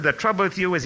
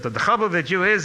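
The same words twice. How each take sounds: First: Said in the usual way. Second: Put-on high, loud Lithuanian-accented scolding. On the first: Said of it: "he broke into English at this point". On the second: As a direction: imitate a rabbi's Lithuanian accent. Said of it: "in his Lithuanian accent".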